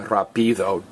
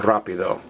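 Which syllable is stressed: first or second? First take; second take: second; first. First: The stress is on the second syllable. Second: The stress is on the first syllable. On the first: The speaker calls it wrong. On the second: The speaker calls it right.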